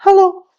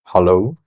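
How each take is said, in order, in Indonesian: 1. Suaranya bernada tinggi. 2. Suaranya bernada rendah. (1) "itu frekuensi tinggi" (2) "Suara gua dalam mode frekuensi rendah itu seperti ini"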